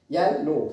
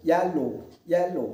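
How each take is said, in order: First: Said in the usual way. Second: Slow "येलो" broken into two parts, ये and लो; split into syllables. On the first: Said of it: "इस word का जो sound होगा produce करेंगे येलो". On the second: Shown as a demonstration. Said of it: "इस तरह से दो पार्ट में डिवाइड हो जाएगा". ("येलो" को धीरे से दो सिलेबल में तोड़कर)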